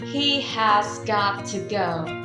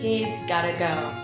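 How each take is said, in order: First: Every word is said fully and separately. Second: The words are shortened and run together quickly.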